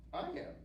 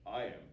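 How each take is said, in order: First: Tiny high-pitched goat; high little goat voice; little billy goat. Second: Short, lower-pitched goat answer; unbothered big goat, lightly voiced; big billy goat. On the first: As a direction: answer in a small, high voice. Little goat answers the troll. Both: A narrator's reading.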